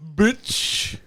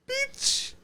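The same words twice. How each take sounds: First: It is said in a low register. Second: It is said in a higher register.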